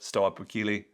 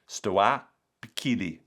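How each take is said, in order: First: The word is said quickly. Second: The word is said at a normal pace.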